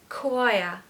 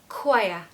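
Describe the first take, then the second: No difference in how they are said.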